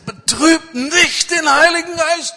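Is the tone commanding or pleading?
pleading. It is said in a soft, pleading tone. It is an earnest, begging request. The speaker calls it right. "was das für eine flehentliche Bitte ist"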